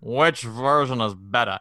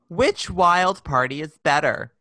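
First: It is said in a jaded, drawling voice. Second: It is said in a perky, girlish voice.

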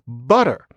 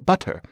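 First: The middle t is a soft flap. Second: The middle t is crisp, not flapped. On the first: This is how the speaker's own community says it. "but we say butter" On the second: This is how people across the ocean say it. "If you cross the pond, then that kind of flapping is often not necessary"

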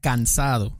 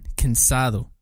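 First: The first vowel is a full, clear a sound. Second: The first vowel is swallowed into a short schwa. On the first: The speaker calls it right. "así como se pronuncia bien en español" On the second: The speaker calls it wrong. "como que se comen esta A"

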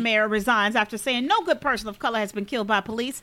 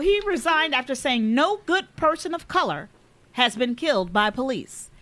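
First: It is read at a normal pace. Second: It is read more slowly.

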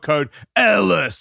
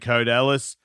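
First: It is said in a forceful, aggressive way. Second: It is said in a relaxed, calm way. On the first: The speaker calls it wrong. "You don't have to enter that aggressively" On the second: The speaker calls it right. "Just enter the code Ellis"

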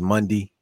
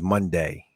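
First: It is said with the local Baltimore pronunciation. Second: It is said with a standard pronunciation. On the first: "when my cousin says Monday" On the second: "he means Monday"

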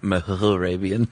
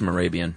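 First: The h sound in the name is pronounced. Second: The h sound in the name is silent. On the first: "not Mehrabian" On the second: "I bet the H is silent. I bet it's just Mehrabian"

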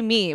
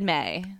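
First: The vowel is a long 'ee' sound. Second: The vowel is an open 'ay' sound. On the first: "we did not say me" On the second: "We said May. It was easier for our vocal cords"

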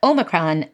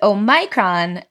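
First: The stress is on the first syllable. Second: The stress is on the second syllable. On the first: "if you say the word with a primary stress, like Omicron, then the second vowel is the shorter monophthong, eh, and it's not stressed" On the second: "the vowel in the second syllable is stressed, and it's a diphthong, so it's very long"

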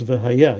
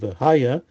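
First: The stress falls on the last syllable. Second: The stress falls on the first syllable. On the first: It refers to the future. The speaker calls it right. "that we pronounce V'haya" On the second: It refers to the past. The speaker calls it wrong. "You wouldn't say"

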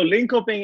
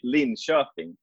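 First: The name has an anglicized North American pronunciation. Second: The name has a native Swedish pronunciation. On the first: "correct in the North American side to say it" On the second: "here in Sweden we say Linköping"

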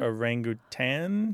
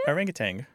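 First: The word ends with a plain 'n' sound. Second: The word ends with a hard 'ng' sound. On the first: The speaker calls it right. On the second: The speaker calls it wrong.

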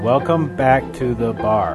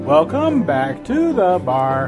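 First: It is read flatly with little inflection. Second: It is read expressively with more inflection.

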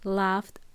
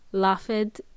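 First: The ending is a short 't' sound. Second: The ending is an extra 'ed' syllable. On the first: The speaker calls it right. "We say ... So it sounds like a T" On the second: The speaker calls it wrong. "So we don't say it"

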